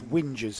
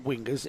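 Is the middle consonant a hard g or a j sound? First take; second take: j sound; hard g. First: The middle consonant is a j sound. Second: The middle consonant is a hard g. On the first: The speaker calls it right. "it's whingers... the drivers used to whinge" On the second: The speaker calls it wrong. "as we were pronouncing it wrong. It's not wingers"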